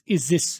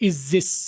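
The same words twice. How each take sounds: No difference in how they are said.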